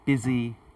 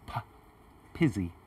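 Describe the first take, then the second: First: The word begins with a voiced b sound. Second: The word begins with a voiceless p sound. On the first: The speaker calls it right. "that stronger b sound" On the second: The speaker calls it wrong. "she said more like pizzy"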